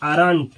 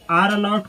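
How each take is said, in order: First: It is said as one short contracted word. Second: It is said as two full separate words.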